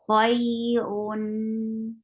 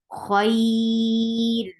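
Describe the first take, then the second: First: The word ends with an added n sound. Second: The word stops on a light r sound. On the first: "there's a medium flow of sound" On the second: "when you will stop, it will be it, this ra will be light"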